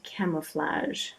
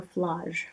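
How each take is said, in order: First: "Camouflage" said slowly in the speaker's own way; slow, soft "Camouflage"; usual pronunciation. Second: "Flage" said with a broad ah, as "flahzh"; soft aside, "Flage" rhyming with mirage; alternative accent pronunciation. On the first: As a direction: say "Camouflage" unhurriedly, in your own accent. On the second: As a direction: offer "Flage" softly as the other accent's version. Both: Shown as a demonstration. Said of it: "depending on your accent".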